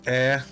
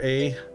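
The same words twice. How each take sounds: First: The vowel is a short A, not the letter. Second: The vowel is a long A, like the letter. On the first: The speaker calls it right. "It's A" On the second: The speaker calls it wrong. "It's not a long A like the letter A"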